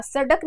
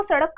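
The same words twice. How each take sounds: First: सड़क with a plain stopped ड, no flap; wrong plain ड. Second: सड़क with the tongue flicked down, a flapped ड़; correct flapped ड़. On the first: Teacher showing students the wrong सड़क, stopped ड. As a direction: say सड़क with hard ड, the error. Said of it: "सड़क नहीं कहा". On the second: Teacher modelling the right सड़क for students, flapped ड़. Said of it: "सड़क कहा". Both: Shown as a demonstration.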